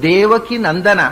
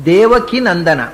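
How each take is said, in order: The two takes are said the same way.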